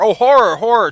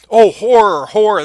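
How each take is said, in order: First: Loud, stricken cry of horror on both words; anguished outcry. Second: Loud, stricken cry of horror; anguished outcry. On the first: Teacher rereads Macduff's outcry. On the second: Macduff discovers the murdered king. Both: Acted. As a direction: cry it out as if you just found the body.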